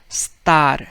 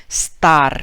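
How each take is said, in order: Both takes have the same delivery.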